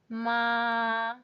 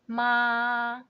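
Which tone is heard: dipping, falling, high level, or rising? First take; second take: high level; high level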